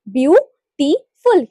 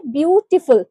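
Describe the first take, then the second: First: beautiful slowly in three separate units, view, टी, फुल; split into syllables. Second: Said in the usual way. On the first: Shown as a demonstration. Teacher counting syllables for students, beautiful said syllable by syllable. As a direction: break beautiful into three beats with clear gaps. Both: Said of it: "यहाँ पे कितने syllable है".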